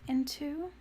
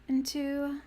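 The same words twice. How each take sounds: Both takes have the same delivery.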